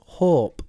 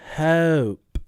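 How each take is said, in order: First: The vowel sounds like 'or'. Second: The vowel sounds like 'oh'. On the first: The speaker calls it wrong. "they sometimes say or. So they'd say" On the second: The speaker calls it right. "in British English, we say oh"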